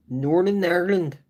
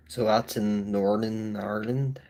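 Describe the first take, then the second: First: "Northern Ireland" repeated higher and louder, leaning on "Northern"; stressed repeat. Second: Said in the usual way. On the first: Shown as a demonstration. Telling viewers his home is "Northern Ireland", emphatic repeat. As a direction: hit "Northern Ireland" again, clear and emphatic.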